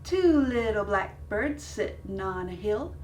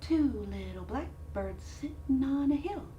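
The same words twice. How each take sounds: First: It is said at normal loudness. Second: It is said much more softly.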